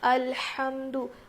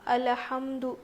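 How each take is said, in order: First: No vowel follows the L sound. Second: A short vowel follows the L sound. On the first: The speaker calls it right. "लाम के ऊपर ज़बर नहीं है बल्कि जज़म है" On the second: The speaker calls it wrong. "बेख्याली में पढ़ लेते हैं"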